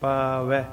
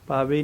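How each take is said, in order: First: The word ends in an 'ai' vowel. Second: The word ends in a plain 'e' vowel. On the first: The speaker calls it right. "ਵੈ ਦੀ sound ਦੇਣੀ ਹੈ" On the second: The speaker calls it wrong. "ਪਾਵੇ ਨਹੀਂ ਆਖਣਾ"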